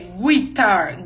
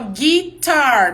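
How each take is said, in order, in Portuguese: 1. O u depois do g é pronunciado. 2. O u depois do g é mudo. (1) "não é guitar" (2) "tem no U, mas não tem som de nada"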